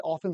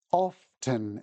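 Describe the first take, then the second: First: "often" said quickly as "offen"; quick silent-T OFTEN. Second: "often" slowly as "off-ten"; clear-T OFTEN. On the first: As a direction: drop the T in "often", casually. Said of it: "when we're speaking quickly". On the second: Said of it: "speaking clearly". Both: Shown as a demonstration.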